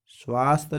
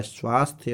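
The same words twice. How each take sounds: First: स्वास्थ्य cut to "svaast", no y; dropped final sound. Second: Said in the usual way. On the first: Shown as a demonstration. Teacher showing the wrong form, स्वास्थ्य said as "svaast". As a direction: drop the ending of स्वास्थ्य: svaast. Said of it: "नहीं होता है". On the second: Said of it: "स्वास्थ्य होता है".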